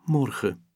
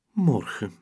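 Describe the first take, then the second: First: Sighed out, heavy and sad; a little girl sighing alone. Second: Repeated sadly, further off; a wistful second sigh; sad echo. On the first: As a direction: let the word sink with a sigh. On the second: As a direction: say it again to herself, lost. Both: Acted. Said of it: "zucht ze dan verdrietig".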